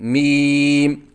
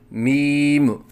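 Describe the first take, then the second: First: The lips stay closed briefly on the final m. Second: The final m ends with a bouncing release. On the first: The speaker calls it right. "एक लम्हे के लिए बंद रखें" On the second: The speaker calls it wrong. "आखिर में मीम के ऊपर कलकला करते हैं, ये गलत है"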